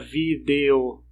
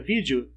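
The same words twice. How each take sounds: First: The middle vowel is a clear 'e' sound. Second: The middle vowel is an 'i' sound. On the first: The speaker calls it wrong. "Ninguém fala vídeo, não pronuncia esse E" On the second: The speaker calls it right. "Você acaba colocando um I no lugar, fica vídeo"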